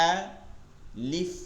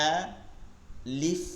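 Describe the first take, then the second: No difference in how they are said.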